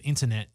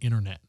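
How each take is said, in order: First: The middle T is clearly pronounced. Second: The middle T is dropped. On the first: "if we said internet" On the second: "you don't pronounce a lot of the T's"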